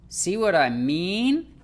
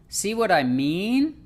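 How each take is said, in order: Both takes have the same delivery.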